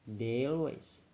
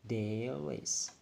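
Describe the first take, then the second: First: The two words are linked smoothly together. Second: The two words are linked smoothly together.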